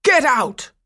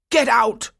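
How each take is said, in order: First: Much louder and higher angry yell; furious shout. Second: Loud, higher angry shout; angry cry. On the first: Toymaker shouting Franz out even harder, furious. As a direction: roar him out the door. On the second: Toymaker throwing Franz out, loud angry shout. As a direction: drive him out of the house. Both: A narrator's reading. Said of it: "Coppelius cried".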